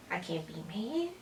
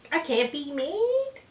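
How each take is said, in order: First: Soft cooing. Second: High, slow cat-talk voice; high cooing. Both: Real, not acted. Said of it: "now you wanna sit on my lap".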